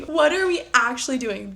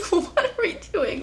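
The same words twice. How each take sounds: First: Said in the usual way. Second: High, helpless giggle through the question; incredulous laughing. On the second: Real, not acted. Reader reacting to a cringey book line, laughing incredulously. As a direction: laugh it out, higher and softer.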